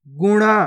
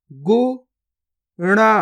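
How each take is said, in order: First: Said in the usual way. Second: गुफा drawn out very slowly, each sound held long; slow stretched reading. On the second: Shown as a demonstration. Teacher showing pupils each sound, drawn out very slowly. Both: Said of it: "पहले तो आपको शब्द को गौर से सुनना है".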